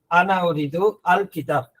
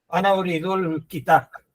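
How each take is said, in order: First: The article is pronounced clearly as its own syllable. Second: The article is elided into the preceding word. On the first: This is how Andalusi speakers say it. "un andalusí dejaría claro el artículo" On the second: This is how classical Arabic says it. "a la hora de hablar se elimina la, la el, hay una elisión"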